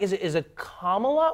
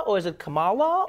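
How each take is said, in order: First: "Kamala" stressed up front; stress on first syllable. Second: "Kamala" stressed in the middle; stress on second syllable. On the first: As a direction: say "Kamala" as KAH-ma-la. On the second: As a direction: say "Kamala" as ka-MAH-la. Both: Shown as a demonstration. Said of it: "everyone goes like".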